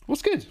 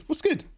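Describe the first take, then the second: First: High, rising what's good; excited greeting. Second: High what's good again with a different lilt; excited greeting. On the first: Streamer greeting a chatter, high and rising. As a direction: toss it up high and friendly. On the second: Streamer repeating the greeting, high and playful. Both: Real, not acted.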